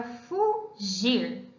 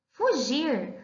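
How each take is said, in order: First: "fugir" slowly, a clear break between fu and gir; "fugir" drawn out syllable by syllable; split into syllables. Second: Said in the usual way. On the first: Shown as a demonstration. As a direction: say "fugir" in two separate syllables, fu, then gir. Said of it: "Vamos separar essa palavra".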